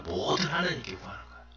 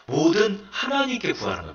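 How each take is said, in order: First: "뭐든 하나님께 구하는 거예요" repeated softly and quickly, half to oneself; soft echo. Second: Said in the usual way. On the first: Shown as a demonstration. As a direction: hush the repeat and let it run quick. Soft echo of previous line. ("하나님께"를 작고 빠르게 혼잣말처럼 되풀이)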